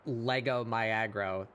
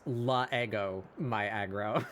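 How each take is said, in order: First: The first letter blends into the next word. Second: The first letter is its own separate syllable. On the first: The speaker calls it wrong. "You you don't you don't blend that first letter past the apostrophe" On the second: The speaker calls it right. "You you pronounce the first letter like as a syllable"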